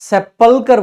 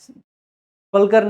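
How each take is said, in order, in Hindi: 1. यह शब्द पूरे 'sep' अक्षर से शुरू होता है। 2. यह शब्द 'sp' व्यंजन गुच्छ से शुरू होता है। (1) "सेपलकर बोला जाता है" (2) "स्पलकर नहीं"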